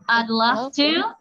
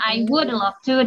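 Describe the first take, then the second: First: 'Would' is shortened to a brief 'd' sound. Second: 'Would' is pronounced fully as a separate word. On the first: "Tapi nggak begitu jelas gitu" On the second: "Atau mau lebih lengkapnya"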